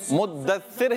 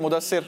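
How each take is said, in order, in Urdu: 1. یہ نام اپنی مکمل، احتیاط والی شکل میں ادا کیا گیا ہے۔ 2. یہ نام عام، بے تکلف شکل میں ادا کیا گیا ہے۔ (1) "مدثر ہے یہ" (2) "اس کو بلائیں گے مدثر مدثر"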